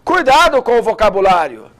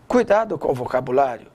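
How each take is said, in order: First: It is spoken loudly, in a strong voice. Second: It is spoken softly, in a low voice. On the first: "e alto" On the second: "vai falar baixinho"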